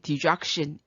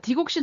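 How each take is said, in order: First: The middle syllable sounds like 'jak'. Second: The middle syllable sounds like 'gok'. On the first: This is how the name is actually pronounced. "실제로는 발음이 디작신 이렇게 하거든요" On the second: This is how people in Korea usually say it. "우리 한국에서 그냥 디곡신이라고 하는데"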